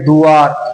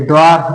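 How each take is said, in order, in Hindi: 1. शब्द की शुरुआत में अलग du अक्षर आता है। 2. शब्द की शुरुआत में कसा हुआ dw समूह आता है। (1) "और ये दुआर" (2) "द्वार उच्चारण अलग अलग करना। एक द्वार है"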